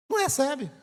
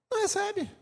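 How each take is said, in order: First: Said in the usual way. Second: "Não recebe" lifted high and soft, "Não" stressed; high soft exclamation. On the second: Shown as a demonstration. Preacher to the congregation, "Não recebe" high and hushed. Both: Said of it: "contrasting repeat of not receiving".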